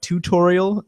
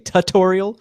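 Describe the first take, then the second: First: The first syllable sounds like "toot". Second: The first syllable sounds like "tut". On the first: "not tutorial" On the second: "I always say plugin tut just because I say tutorial"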